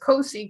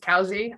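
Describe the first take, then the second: First: The first syllable sounds like 'coe'. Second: The first syllable sounds like 'cow'. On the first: The speaker calls it wrong. "Even though it says Cosi Caves" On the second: The speaker calls it right. "it is Cowsey"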